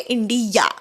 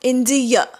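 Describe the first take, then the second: First: The final vowel is a long open 'aa'. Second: The final vowel is a short weak 'uh'. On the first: This is the common local way of saying it. "शेवटी आ म्हणतो" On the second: This is how native speakers say it. "ते शेवटी अ म्हणतात"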